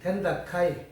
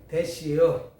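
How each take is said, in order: First: It is said in Busan dialect. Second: It is said in Chungcheong dialect. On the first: "저 부산에 가니까 됩니다를" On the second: "충청도로 오니까 또 거긴 또 말이 틀려"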